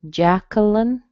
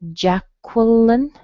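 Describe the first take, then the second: First: The middle syllable has no W sound: kuh. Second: The middle syllable has a W sound: kwuh. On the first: "without the little W sound" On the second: "Qua with a schwa"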